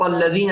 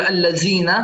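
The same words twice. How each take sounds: First: Tongue between teeth for ذ in الذين; correct interdental. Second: الذين with a buzzing z, "allazina"; mispronunciation demo. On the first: Teacher models it, الذين with interdental ذ. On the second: Teacher shows the mistake, الذين with z for ذ. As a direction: turn the ذ of الذين into z. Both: Shown as a demonstration. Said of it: "لا نقول الذين".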